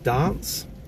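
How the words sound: It is said with a South Australian accent. "people over here will pronounce dance as dance"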